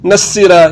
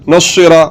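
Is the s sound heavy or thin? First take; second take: thin; heavy. First: The s sound is thin and light. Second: The s sound is heavy and full. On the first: The speaker calls it wrong. "ये बारीक है" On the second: The speaker calls it right. "मोटा पढ़ना है"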